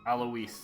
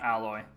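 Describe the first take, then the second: First: The name does not sound like alloy. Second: The name sounds like the word alloy. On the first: The speaker calls it right. "That's how you pronounce that" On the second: The speaker calls it wrong. "Not alloy"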